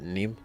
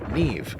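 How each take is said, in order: First: The name ends with an M sound. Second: The name ends with a V sound. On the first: The speaker calls it wrong. "I pronounce it Neem" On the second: The speaker calls it right. "it's actually Irish"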